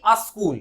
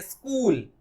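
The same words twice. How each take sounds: First: अ स्कूल with "a" before the s; incorrect pronunciation. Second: स्कूल opening on a bare "sk"; correct pronunciation. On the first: Teacher showing what to avoid, अ स्कूल as "a-skool". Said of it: "ना कि". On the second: Teacher modelling the correct word, स्कूल as "skool". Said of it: "ऐसा pronounce होना चाहिए". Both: Shown as a demonstration.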